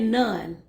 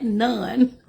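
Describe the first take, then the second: First: Said in the usual way. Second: NONE louder, breaking into a laugh; emphatic echo. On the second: Retold or imitated. Reader relishing the daughter's one-word answer, emphatic NONE. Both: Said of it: "Just like that".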